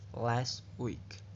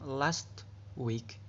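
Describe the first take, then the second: First: The t at the end of last is dropped. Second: The t at the end of last is pronounced.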